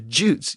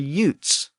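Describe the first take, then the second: First: The name begins with a J sound. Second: The name begins with a Y sound. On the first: This is the later form of the name. "it reflects a later pronunciation change" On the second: This is the earlier form of the name. "They were more like the Utes"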